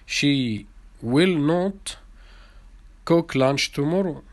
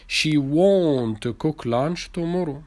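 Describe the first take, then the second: First: Will not is said as two full words. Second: Will not is shortened to one syllable, won't.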